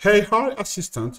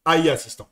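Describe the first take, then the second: First: "Hey, hi, assistant" as English "AI assistant", in a French accent; English pronunciation. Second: "A I assistant" with French letters, ah-ee, and silent final t; French pronunciation. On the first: French coach switching to English for viewers, "Hey, hi, assistant" anglicised. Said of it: "we can switch to English". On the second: French coach switching back to French, "A I assistant" as ah-ee assistant. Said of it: "switch to French". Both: Shown as a demonstration.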